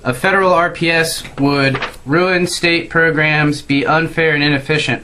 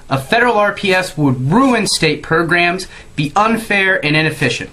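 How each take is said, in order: First: It is read in a flat, monotone, low-energy voice. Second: It is read in a lively, energetic, expressive voice. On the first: The speaker calls it wrong. "Sort of monotone and boring" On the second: The speaker calls it right. "I really try to put some gusto in it"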